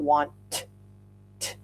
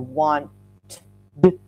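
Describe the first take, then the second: First: The word ends with a plain T sound. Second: The word ends with a plain D sound. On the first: "It's not want t" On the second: "or want d"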